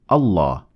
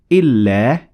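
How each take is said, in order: First: The L is dark and full-mouthed. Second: The L is light and thin. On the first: "instead of" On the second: "you pronounce the L in Allah lightly or empty-mouthed"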